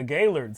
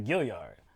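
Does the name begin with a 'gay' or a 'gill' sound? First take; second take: gay; gill. First: The first syllable sounds like 'gay'. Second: The first syllable sounds like 'gill'. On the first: The speaker calls it right. "Cor- correctly pronounced" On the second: The speaker calls it wrong. "completely ignore that A and say Gilliard"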